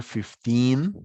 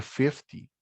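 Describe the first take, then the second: First: Put-on fif-TEEN, the last syllable of "fifteen" lifted and long; stress on second syllable. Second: FIF-ty, a short unstressed last syllable in "fifty"; stress on first syllable. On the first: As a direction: punch the end of "fifteen". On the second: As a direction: let the end of "fifty" drop away. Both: Shown as a demonstration. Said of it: "La diferencia de entonación".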